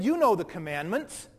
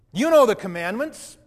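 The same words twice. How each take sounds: First: Said in the usual way. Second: Louder, pressing repeat with a rise on know; insistent second reminder of the commandments; emphatic repeat. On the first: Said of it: "he said". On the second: Retold or imitated. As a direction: drive the reminder home louder. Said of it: "repeated with force".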